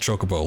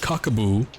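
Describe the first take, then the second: First: The word begins with a 'ch' sound. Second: The word begins with a 'k' sound. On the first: This is how nearly everyone says it. "if you ever said chocobo, like, oh, pretty much everyone did" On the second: This is how one insistent kid said it. "would always pronounce chocobos as cockaboos"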